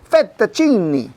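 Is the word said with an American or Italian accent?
Italian. It is said with an Italian accent.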